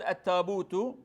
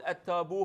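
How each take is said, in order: First: The word ends with a t sound. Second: The word ends with an h sound. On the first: This is how the Quraysh tribe says it. "فالقريش يقول التابوت" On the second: This is how some other tribes say it. "قبائل أخرى يقول التابوه بحرف الهاء"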